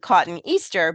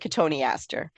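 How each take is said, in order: First: It sounds like the words cotton Easter. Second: It sounds like co-toe-nee-aster. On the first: The speaker calls it wrong. "it's spelled like cotton Easter" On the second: The speaker calls it right. "but it's really Cotoneaster"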